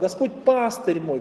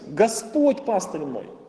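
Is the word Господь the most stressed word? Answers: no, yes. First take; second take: no; yes. First: The main stress falls on a later word. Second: The main stress falls on Господь. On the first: "выделим другое слово" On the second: "когда мы делаем логическое ударение на слово «Господь»"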